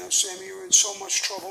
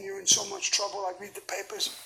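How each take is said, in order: First: Imitating his wife, higher and louder; a high pitying coo from a fretting wife; wife at the prison visit, higher and louder mock pity; wife's worried pity. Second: Said in the usual way. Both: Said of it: "and she's saying".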